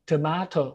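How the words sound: It is said with a British accent. "คนอังกฤษนะครับ"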